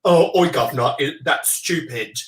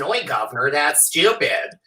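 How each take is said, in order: First: Mock English accent; English "oi, governor" accent. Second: Mock American accent. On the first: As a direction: put on a cockney-style English accent. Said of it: "do an English accent". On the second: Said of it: "if it's an American person". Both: Shown as a demonstration.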